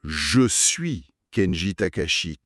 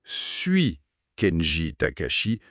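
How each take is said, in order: First: Slow, careful je suis Kenji Takashi; teacher spells out je suis Kenji Takashi; slow correct model. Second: Slow suis Kenji Takashi, rising on suis; slow, questioning suis Kenji Takashi; slow wrong form. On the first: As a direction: model the right sentence slowly. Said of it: "La bonne phrase". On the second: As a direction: show the mistake slowly. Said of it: "ça c'est incorrect". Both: Shown as a demonstration.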